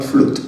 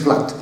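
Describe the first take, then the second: First: 'flood' with a long oo, like 'flute'; 'flood' as the error to avoid; mispronounced 'flood'. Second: 'flat' as flood with an open short vowel; 'flat' as the model pronunciation of flood; corrected 'flat'. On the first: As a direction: say 'flood' to rhyme with food. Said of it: "the right pronunciation". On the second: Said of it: "the right pronunciation is". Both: Shown as a demonstration.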